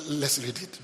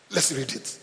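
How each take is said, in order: Both takes have the same delivery.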